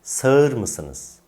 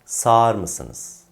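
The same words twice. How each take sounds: First: "Sağır" said sa-ır; wrong as-spelled pronunciation. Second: "Sağır" said saar; correct spoken form. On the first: Teacher contrasts mistake with correction, "Sağır" as sa-ır. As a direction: let ı be heard in "Sağır". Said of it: "Yanlış olan". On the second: Teacher contrasts correction with mistake, "Sağır" as saar. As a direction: swallow ı, long a in "Sağır". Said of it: "Doğru olan". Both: Shown as a demonstration.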